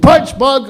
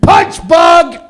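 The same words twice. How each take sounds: First: Loud high shout; game shout. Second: High loud shout of the game call. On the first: Retold or imitated. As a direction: call it out while punching your brother. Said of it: "I went". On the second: Shown as a demonstration. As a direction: yell it as you punch. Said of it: "and go".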